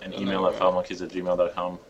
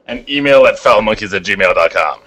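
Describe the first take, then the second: First: It is said at a normal, quieter volume. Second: It is said more loudly.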